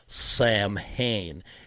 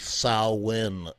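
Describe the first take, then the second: First: It begins like 'sam' and ends like 'hain'. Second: It begins like 'sow' and ends like 'in'. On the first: The speaker calls it wrong. "It's not Sam Hain" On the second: The speaker calls it right. "It's actually Samhain. ... It's the sow, like a cow, and then in"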